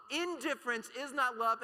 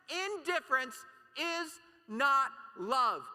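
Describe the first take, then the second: First: Said in the usual way. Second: "Indifference is not love" drawn out slow and loud, leaning on "not"; slow emphatic stress. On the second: Real, not acted. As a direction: hammer "not", slow and high.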